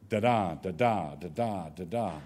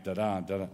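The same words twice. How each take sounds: First: Deliberate weak-strong chant, stressing every second syllable; iambic rhythm. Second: Quick da-DA, da-DA with the second beat stressed; weak-strong nonsense syllables, quickly; iambic rhythm. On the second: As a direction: tap out an iamb lightly. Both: Shown as a demonstration. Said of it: "So in an iambic poem".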